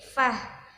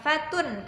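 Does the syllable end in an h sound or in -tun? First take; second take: h sound; -tun. First: The syllable ends with a breathy h sound. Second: The syllable ends with a t and -un ending. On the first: The speaker calls it right. "tapi jadi fah" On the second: The speaker calls it wrong. "bukan fatun ketika diwakof"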